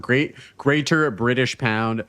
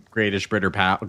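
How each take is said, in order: First: "Greater British Pound" said slowly, each word clear; slow, deliberate fix of "Greater British Pound"; careful correction. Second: "Greatish Britter pound" tripped over, sounds swapped; fumbled words. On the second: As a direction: slur "Greatish Britter pound" like a tongue slip. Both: Real, not acted.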